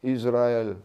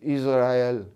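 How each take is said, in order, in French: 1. Elle se prononce à l'hébraïque. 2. Elle se prononce à l'hébraïque.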